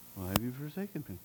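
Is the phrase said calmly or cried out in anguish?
calm. It is said calmly and plainly. The speaker calls it wrong. "it wasn't like we just said it right here"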